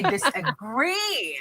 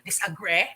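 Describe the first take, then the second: First: The final E vowel sound is long. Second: The final E vowel sound is short. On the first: The speaker calls it right. "we're having a long E sound. ... we say disagree" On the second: The speaker calls it wrong. "We don't say disagree"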